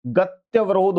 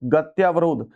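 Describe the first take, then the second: First: गत्यवरोध with a short "tya", drawn out slowly; correct short a. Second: गत्यावरोध with a long "tyaa"; wrong long aa. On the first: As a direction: say गत्यवरोध slowly as "gat-ya-va-rodh". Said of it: "ये सही है". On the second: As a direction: say गत्यावरोध as "gat-yaa-va-rodh". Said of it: "आ की मात्रा गलत है". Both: Shown as a demonstration.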